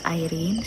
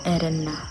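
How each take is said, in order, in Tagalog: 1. Ang pangalan ay binibigkas sa paraang Ingles. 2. Ang pangalan ay binibigkas sa paraang Italyano. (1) "Yung pagbasa ng pangalan niya is Irene sa English" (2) "pero sa Italian words, nag-pronounce po siya ng Irene"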